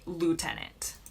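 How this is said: It is said in an American accent. "in the U S, we say lieutenant"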